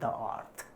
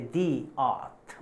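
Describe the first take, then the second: First: The word 'the' is said as 'thuh'. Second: The word 'the' is said as 'thee'. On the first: The speaker calls it wrong. "we don't say the earth" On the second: The speaker calls it right. "in case of vowel, the starting sound is vowel of the word, so we say the earth"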